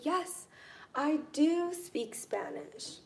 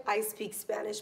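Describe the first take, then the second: First: "do" raised high and drawn out; stress on DO. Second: Said in the usual way. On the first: Shown as a demonstration. Teacher models insisting she does speak Spanish, "do" stressed. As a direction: insist on it, punching "do" slowly. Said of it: "When you are wanting to emphasize". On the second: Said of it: "Or you can simply say".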